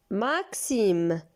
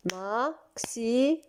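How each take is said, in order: First: Said in the usual way. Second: Maxime split into beats, softer, rising; clapped syllables. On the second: Shown as a demonstration. Teacher claps out the word with children, beat by beat. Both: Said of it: "Tapons des mains".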